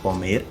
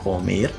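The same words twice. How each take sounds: No difference in how they are said.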